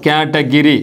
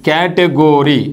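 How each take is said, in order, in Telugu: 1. మూడవ అక్షరంలో 'ih' అచ్చు ఉంది. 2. మూడవ అక్షరంలో 'oh' అచ్చు ఉంది. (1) "కేటగిరీ ... ఇట్లా పలుకుతాం. ఓకే, ఇది తప్పు" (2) "కేటగోరీ అని పలకండి"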